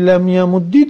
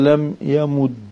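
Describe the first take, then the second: First: The verb ends with an i vowel. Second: The verb ends with a u vowel. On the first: This ending is the default vowel for a silent letter. "والكسر بابوچي لم يمد درستا، لأنه الأصل في حركة الساكن" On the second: This ending matches the vowel of the middle letter. "والضم بابوش الضم ما درستا لم يمد قتلي إتباع العين"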